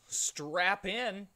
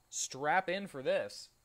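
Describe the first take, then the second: First: Higher, louder hype call; rally the audience up high; excited. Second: Slow, loud "Strap in for this" with this punched; stress on this. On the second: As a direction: drag it out and hit "this". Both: Real, not acted.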